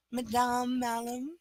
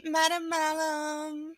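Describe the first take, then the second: First: Madame Malum with a French ma-DAHM, long nasal m. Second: Said in the usual way. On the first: Shown as a demonstration. Fixing a viewer's name with French Madame pronunciation. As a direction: correct it to a French-style Madame, stretch the last syllable. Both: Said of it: "You know how to say it".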